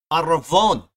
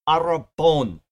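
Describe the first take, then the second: First: "arravon" said louder, with a v; Hebrew pronunciation. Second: "arrabon" said with a b; Greek pronunciation. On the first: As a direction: punch out "arravon" as a Hebrew word, with a v sound. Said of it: "it's a Hebrew word". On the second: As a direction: say "arrabon" as a Greek word, with a b sound. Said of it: "is the Greek word arrabon". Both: Shown as a demonstration.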